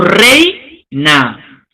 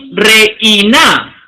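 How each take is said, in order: First: The vowels e and i glide together. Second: The vowels e and i are split apart. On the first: The speaker calls it right. "decimos reina" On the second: The speaker calls it wrong. "No decimos reina"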